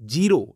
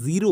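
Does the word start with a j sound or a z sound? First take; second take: j sound; z sound. First: The word begins with a j sound. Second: The word begins with a buzzing z sound. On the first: The speaker calls it wrong. "लोग बोलते हैं जीरो, जीरो नहीं होता" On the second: The speaker calls it right. "ज़ का sound निकलता है"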